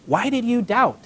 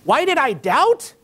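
First: Measured, slightly higher question; mild reproach, read out as a quote. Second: High, drawn-out disbelieving echo; slow, rising, indignant question; incredulous. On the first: A narrator's reading. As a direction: ask it as a gentle challenge. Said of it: "he said". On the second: Pretend. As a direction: throw the question back in mock disbelief. Peter's acted incredulous comeback.

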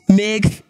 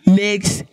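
No difference in how they are said.

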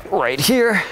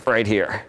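First: "right here" pushed out high and tight; effortful high "right here"; strained core voice. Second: Said in the usual way. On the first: Real, not acted. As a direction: squeeze "right here" out while holding the twist. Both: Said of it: "I'm gonna start talking like that".

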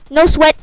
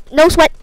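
The two takes are said the same way.

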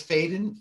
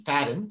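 First: Faden with a long A; misread surname. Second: Fadden with a short A; corrected surname. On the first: Host reading out viewer's name, misread as Faden. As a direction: say Faden with AY, as in fade. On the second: Host fixing viewer's surname, corrected to Fadden. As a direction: say Fadden to rhyme with madden. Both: Real, not acted. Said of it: "Fadden, sorry".

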